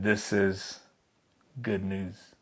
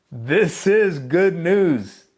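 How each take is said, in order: First: Soft and low, half to oneself; a whispered-feeling realization of good news; hushed awe. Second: Slow, loud and higher, each word ringing; triumphant drawn-out announcement; loud slow proclamation. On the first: Retold or imitated. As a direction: breathe it out in quiet wonder. Adam and Eve hear the promise. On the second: Acted. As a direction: ring it out like a herald's cry. Preacher proclaims the gospel.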